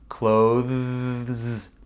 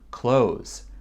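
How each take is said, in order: First: The 'th' is voiced with strong vibration. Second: The 'th' is dropped, sounding like 'close'. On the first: "Donc ça vibre beaucoup" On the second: "on dit pas le T H ici. On dit close"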